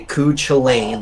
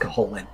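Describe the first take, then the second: First: The name gets an anglicized reading. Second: The name gets its Irish pronunciation. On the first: The speaker calls it wrong. "You've seen it say Cuchulainn. That's not how you pronounce the guy" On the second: The speaker calls it right. "It's Cuchulainn"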